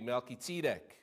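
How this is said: The name is said with a Hebrew pronunciation.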